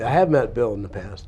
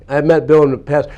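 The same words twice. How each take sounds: First: Said in the usual way. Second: Louder, firm correction; emphatic restatement. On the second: Shown as a demonstration. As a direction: say it again with weight.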